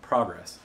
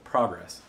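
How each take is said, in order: First: The word is said with a Midwestern American accent. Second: The word is said with a Midwestern American accent.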